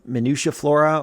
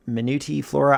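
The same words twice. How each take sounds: First: MINUTIA said with a "sha" ending; tentative pronunciation. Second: MINUTI said with a "tee" ending; alternative pronunciation. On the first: Photographer guessing a plant's name for listeners, unsure pronunciation. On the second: Photographer offering another guess at plant's name, alternative pronunciation. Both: Shown as a demonstration. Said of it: "I don't know how to pronounce it".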